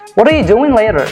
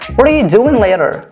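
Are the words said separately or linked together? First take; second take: linked; linked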